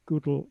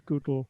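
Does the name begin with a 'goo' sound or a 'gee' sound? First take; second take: goo; goo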